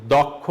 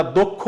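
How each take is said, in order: First: দক্ষ said as dɔkkho, open অ; দক্ষ with a plain open অ, the wrong way; wrong reading. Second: দক্ষ said as dokkho, rounded o; দক্ষ with the first vowel like o; correct reading. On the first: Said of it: "দক্ষ কিন্তু বলছি না". (দক্ষ ভুল উচ্চারণ, খোলা অ দিয়ে) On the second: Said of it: "আমরা দক্ষ বলছি". (দক্ষ উচ্চারণ দোক্ খো, ও-এর মতো) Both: Shown as a demonstration.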